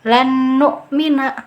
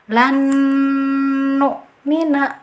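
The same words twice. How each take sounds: First: The n merges but without a held nasal. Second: The n merges with a nasal held two counts. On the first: The speaker calls it wrong. "sudah betul dimasukkan tapi dengungannya tidak ada" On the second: The speaker calls it right. "cara baca yang betul adalah lan nu'mina"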